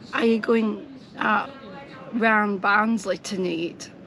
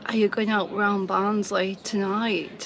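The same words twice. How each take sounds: First: It is spoken in a broad Barnsley accent. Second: It is spoken in a mild Barnsley accent. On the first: This is how she does not talk. "I don't say" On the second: This is how she actually talks. "I'll say"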